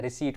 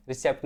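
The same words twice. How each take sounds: First: "रिसीट" said re-seet; silent p. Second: "रिसेप्ट" with p pronounced; wrong pronunciation. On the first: Teacher repeats the right reading for students, silent p. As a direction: leave out the p in "रिसीट". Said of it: "रिसीट पढ़ना है". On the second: Teacher repeats the mistake to ban it, sounded p. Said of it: "रिसेप्ट नहीं पढ़ना है". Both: Shown as a demonstration.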